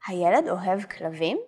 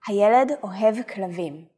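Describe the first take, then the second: First: It is said with question intonation. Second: It is said as a plain statement.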